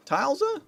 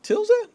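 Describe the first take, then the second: First: Tilza with a long i, as in "tile"; high, questioning "TILE-za"; alternative pronunciation. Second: Tilza with a short i, as in "till"; high, questioning "TILL-za"; unsure pronunciation. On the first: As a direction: try Tilza with the first syllable like "tile". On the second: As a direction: try Tilza with the first syllable like "till". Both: Shown as a demonstration. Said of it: "Patrick Ty".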